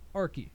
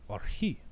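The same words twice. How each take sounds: First: The word is pronounced the English way. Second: The word is pronounced the Greek way. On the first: "or we can pronounce it English way" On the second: "to the Greek it translates to archi"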